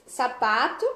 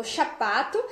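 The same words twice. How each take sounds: First: Said in the usual way. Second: Chapato with sh in place of s; child's mispronunciation. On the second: Shown as a demonstration. Therapist showing how the child says chapato. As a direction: say chapato, sh sound at the start. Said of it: "A criança falou chapato".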